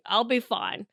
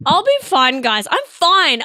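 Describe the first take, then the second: First: Soft, understated self-reassurance; quiet, falling resignation; subdued reassurance. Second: Loud, high protest; comically defensive reassurance; over-insistent. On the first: Real, not acted. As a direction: say it softly, half to yourself. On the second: Pretend. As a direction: insist it too hard, louder and higher. Insisting louder that she's fine.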